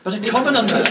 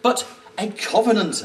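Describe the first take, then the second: First: It is said in the speaker's own accent. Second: It is said in a mock German accent.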